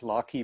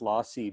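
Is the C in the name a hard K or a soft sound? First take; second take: hard K; soft. First: The C is said as a hard K. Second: The C is said as a soft sound. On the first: The name follows the word computation. "computation has a hard K" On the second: The name sounds like an opera lyric. "it sounds like a [name] opera lyric"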